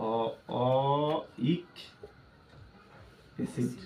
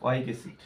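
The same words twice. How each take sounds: First: ওয়িক broken into very long, slow sounds; slow teaching model of ওয়িক, sound by sound. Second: Said in the usual way. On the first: Shown as a demonstration. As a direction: draw out ওয়িক, pause, then softly add acid. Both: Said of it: "আর কি?".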